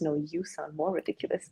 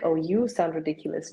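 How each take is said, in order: First: More stretched and rising; mock retort, stress on more. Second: Said in the usual way. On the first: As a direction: lean into the word more, softer overall. Mocking dialect rivalry quote.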